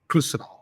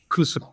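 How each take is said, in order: First: The vowels are rushed and nearly dropped. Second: The vowels are rushed and nearly dropped.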